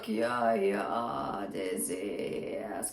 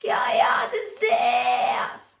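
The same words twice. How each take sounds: First: A vocal fry scream placed too low in pitch. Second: A vocal fry scream placed high in head voice. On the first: The speaker calls it wrong. "So it's not Kiat is this kind of thing. It's too low" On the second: The speaker calls it right. "Think of it as fry, but on head voice"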